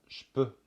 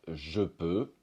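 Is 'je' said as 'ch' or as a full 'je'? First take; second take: ch; full je. First: The 'je' shrinks to a 'ch' sound. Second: The 'je' is said fully with its vowel. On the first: "un Français dira souvent" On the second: "Au lieu de dire"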